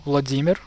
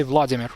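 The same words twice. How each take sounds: First: "Vladimir" stressed on the second syllable, vla-DEE-mir; "Vladimir" the Russian way, vla-DEE-mir. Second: "Vladimir" stressed on the first syllable, VLAD-i-mir; "Vladimir" the English way, VLAD-i-mir. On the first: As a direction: hit the "DI" in "Vladimir". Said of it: "putting the emphasis on the first syllable". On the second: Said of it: "you always say Vladimir". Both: Shown as a demonstration.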